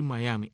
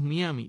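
First: The first syllable sounds like 'my', as in Mayaimi. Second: The first syllable sounds like 'mee', Spanish-style. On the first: The speaker calls it right. "Lo correcto es decir Miami" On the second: The speaker calls it wrong. "tan fácil de leer en español como Miami, los cubanos decimos Miami"

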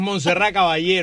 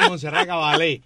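First: The name is said with a Spanish pronunciation. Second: The name is said with an American pronunciation. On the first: The speaker calls it right. "ella es española. Es [name]" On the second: The speaker calls it wrong. "Los gringos le dicen Montserrat Caballé"

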